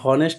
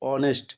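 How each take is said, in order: First: The word starts with an h sound. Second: The word starts with a vowel sound. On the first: The speaker calls it wrong. "হনেস্ট না হয়ে" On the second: The speaker calls it right.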